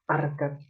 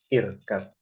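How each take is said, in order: First: The word begins with an a vowel. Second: The word begins with an i vowel. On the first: The speaker calls it wrong. "bukan arkat" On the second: The speaker calls it right. "maka yang ininya kasroh"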